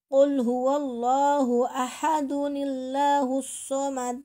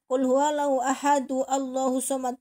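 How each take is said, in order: First: An 'ni' sound links ahad to Allahu. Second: Ahad runs into Allahu with no 'n' sound. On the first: The speaker calls it right. "itu harus dibaca dunillahus somad ya" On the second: The speaker calls it wrong.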